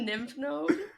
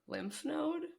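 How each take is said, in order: First: The first word starts with an N sound. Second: The first word starts with an L sound. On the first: The speaker calls it wrong. "You just call it a nymph node?" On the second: The speaker calls it right. "How do you pronounce it?"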